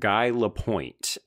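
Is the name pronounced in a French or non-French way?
non-French. The name is said in a non-French way. This is how the character says it in the movie. The speaker calls it wrong. "He pronounces it Guy Lapointe"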